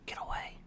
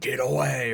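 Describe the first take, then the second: First: The words are whispered quietly. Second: The words are screamed loudly. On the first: "it was like a whisper" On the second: "It wasn't like a screaming"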